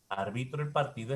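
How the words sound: The pitch falls at the end. It is a statement. "es descendente"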